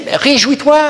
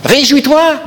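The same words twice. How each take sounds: First: Exhortation joyeuse. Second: Exhortation plus forte. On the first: Preacher exhorting joy. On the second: Repeated, louder exhortation. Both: Acted.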